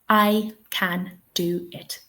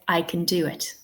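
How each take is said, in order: First: The word can has a full, strong vowel. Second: The word can has a weak schwa vowel. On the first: The speaker calls it wrong. "I would never say it like this in real life" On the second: The speaker calls it right. "In real life, I would say, ... because we're not stressing the word can"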